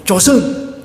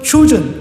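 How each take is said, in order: First: It is said with a Korean pronunciation, 'Joseon'. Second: It is said like the English word 'chosen'. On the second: "조선을 이제 발음을 하면은 조선을 이제 추전"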